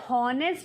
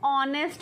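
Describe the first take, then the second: First: The word begins with an audible h sound. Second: The word begins with a vowel, no h. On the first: The speaker calls it wrong. "हॉनेस्ट नहीं बोलते" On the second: The speaker calls it right. "Silent होता है तो हम क्या बोलते हैं उसको, ऑनेस्ट बोलते हैं"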